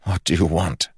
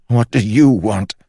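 First: Said in the usual way. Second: High, loud desperate demand. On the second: Acted. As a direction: shout the question at it. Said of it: "asked Holland".

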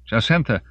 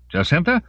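First: Raised name with a falling end; relieved exclamation. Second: High, loud, rising question; searching call. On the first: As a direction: say the name on finding her. Father has found his daughter. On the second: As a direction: call the name out, unsure where she is. Father calls, searching for her. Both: A narrator's reading.

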